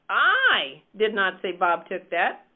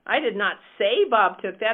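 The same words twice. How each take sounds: First: The stress is on "I". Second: The stress is on "say".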